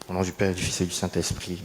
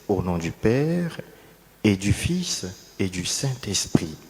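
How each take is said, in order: First: It is said quickly and hurriedly. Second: It is said slowly and calmly. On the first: The gesture has become routine and rushed. The speaker calls it wrong. "de façon expéditive et lapidaire" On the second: The name of God is honored with reverence. The speaker calls it right. "calmement, posément, sereinement, avec toute la révérence"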